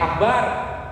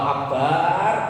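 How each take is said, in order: First: The vowel after the b is short. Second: The vowel after the b is long. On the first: It means the great one. The speaker calls it right. "kalau dipanggil pendek" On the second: It means the bottom of a pot. The speaker calls it wrong. "baknya panjang"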